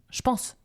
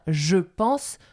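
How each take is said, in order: First: The vowel drops, so 'je' sounds like 'ch'. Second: The vowel of 'je' is clearly pronounced. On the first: The speaker calls it right. "je vais dire je pense" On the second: The speaker calls it wrong. "je ne vais pas dire je pense"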